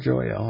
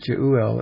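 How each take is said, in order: First: The middle vowels merge into one syllable. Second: The middle vowels are said as two syllables. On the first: "or Joel, I guess we could maybe say" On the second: "it's separated in two vowels"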